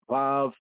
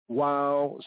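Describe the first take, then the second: First: The word begins with a v sound. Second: The word begins with a w sound. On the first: "Others enunciate as vav" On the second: "Some of us enunciate that sixth letter of the Hebrew alphabet as wow"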